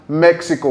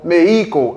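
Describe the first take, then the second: First: It is said with an English pronunciation. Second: It is said with a Spanish pronunciation.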